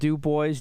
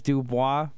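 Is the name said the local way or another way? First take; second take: local; another. First: The name is said the local way. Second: The name is said a non-local way. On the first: The speaker calls it right. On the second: The speaker calls it wrong.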